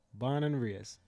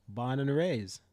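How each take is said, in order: Both takes have the same delivery.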